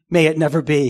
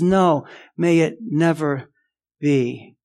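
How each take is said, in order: First: Said in the usual way. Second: Slow, with a pause before a low "be"; firm denial. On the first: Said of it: "a simple answer". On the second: Acted. Preacher quoting Paul's refusal, "never" and "be" slow and deliberate. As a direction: space out "may it never ... be" with weight. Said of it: "He says".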